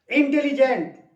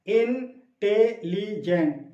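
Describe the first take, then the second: First: Said in the usual way. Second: इंटेलिजेंट drawn out very slowly, syllable by syllable; syllables spelled out. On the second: Shown as a demonstration. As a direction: stretch इंटेलिजेंट into four slow beats. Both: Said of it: "चार syllable इसमें है".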